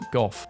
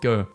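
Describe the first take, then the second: First: It is said the British way. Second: It is said the American way.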